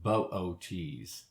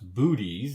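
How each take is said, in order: First: The two O's are said as separate sounds. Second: The two O's merge into one long oo. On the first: The speaker calls it right. "the proper pronunciation is pronouncing both O's" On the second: The speaker calls it wrong. "looks like it should be pronounced booties"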